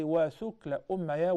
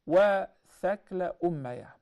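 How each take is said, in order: First: وَثُكْلَ with a short "u" after the th; flowing "wa-thukla" for وَثُكْلَ, u vowel on the ث; more fluent pronunciation. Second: وَثَكْلَ louder, with a short "a" after the th; alternative thakla pronunciation. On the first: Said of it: "which is more fluent". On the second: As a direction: set out "wa-thakla" for وَثَكْلَ, a vowel on the ث. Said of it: "or you can say". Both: Shown as a demonstration.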